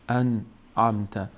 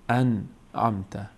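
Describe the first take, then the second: The two takes are said the same way.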